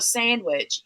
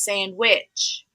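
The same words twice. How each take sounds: First: The stress is on the first syllable. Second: The stress is on the second syllable. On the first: "It's not a sandwich" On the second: "puts the emphasis on the which part. He says sandwich"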